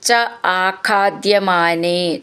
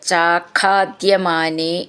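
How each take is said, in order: First: The two words are said separately. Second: The two words are joined into one.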